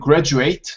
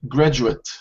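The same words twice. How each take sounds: First: It has the verb pronunciation of the word. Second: It has the noun pronunciation of the word. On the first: It names the action of finishing studies. "it's a verb here in this context" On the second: It names a person who finished studies. "when it's a noun, the pronunciation would change slightly"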